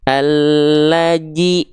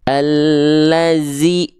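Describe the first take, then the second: First: The middle consonant is a j sound. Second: The middle consonant is a hissing z sound. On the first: "dibaca menjadi huruf jim" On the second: "jangan dibaca menjadi huruf zai"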